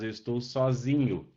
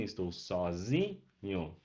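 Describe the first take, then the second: First: Said in the usual way. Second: Sozinho slowly split, zi drawn out, lower and softer; stress on ZI. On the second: Shown as a demonstration. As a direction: break sozinho into syllables and hold the zi. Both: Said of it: "a sílaba tônica vai pro zinho".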